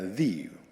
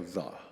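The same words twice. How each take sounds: First: The vowel is a long 'ee' sound. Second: The vowel is a short 'uh' sound. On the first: The next word starts with a vowel sound. "with the E vowel" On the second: The next word starts with a consonant sound. "if it's a consonant uh, sound, then you would s- simply go the"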